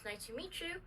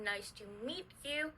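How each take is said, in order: First: The t and y merge into a ch sound. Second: The t and y sounds stay separate. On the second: "T plus U"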